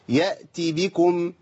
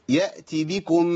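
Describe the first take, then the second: No difference in how they are said.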